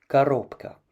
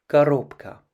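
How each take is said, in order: Both takes have the same delivery.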